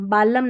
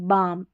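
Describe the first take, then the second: First: An L sound is heard before the M. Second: No L sound is heard before the M. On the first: The speaker calls it wrong. "बालम नहीं" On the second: The speaker calls it right. "एल को नहीं पढ़ते"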